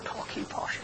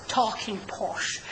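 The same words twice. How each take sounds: First: "talking posh" whispered in a put-on posh voice; a teasing hint of posh English; mock posh. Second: Said in the usual way. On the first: Shown as a demonstration. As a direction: breathe "talking posh" like a Queen's English toff.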